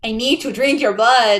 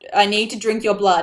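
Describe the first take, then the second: First: It is said in a put-on Transylvanian accent. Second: It is read in the speaker's normal voice.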